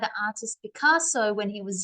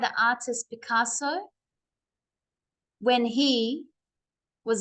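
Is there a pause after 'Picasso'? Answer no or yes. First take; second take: no; yes. First: It runs on without a pause after Picasso. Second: There is a pause after Picasso. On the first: The speaker calls it right. "So it should be" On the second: The speaker calls it wrong. "not like this"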